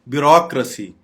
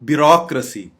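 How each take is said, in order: Both takes have the same delivery.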